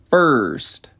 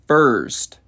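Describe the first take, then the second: Both takes have the same delivery.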